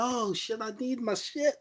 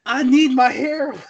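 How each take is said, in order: First: Much softer, high, laughing junkie moan; mock junkie mumble. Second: High, laughing junkie whine; mock junkie plea. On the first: Mocking the heroine who shoots up every minute, soft and laughing. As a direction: moan it softly like a strung-out addict. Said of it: "She's like". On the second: Mocking the movie's hybrid heroine craving her injection, high and laughing. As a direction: whine it like a needy addict, half-laughing. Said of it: "She needs heroin".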